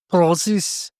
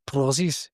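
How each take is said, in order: First: Put-on word prozzies in a Scottish accent, rolled and bouncy. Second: Put-on prozzies again in a light Scottish accent. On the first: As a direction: say prozzies like a Scot. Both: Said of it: "It's great when you say it in a Scottish accent".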